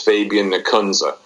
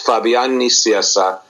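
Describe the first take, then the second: First: The name is said with American pronunciation. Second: The name is said with Spanish pronunciation. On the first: "And in American" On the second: "In Spanish"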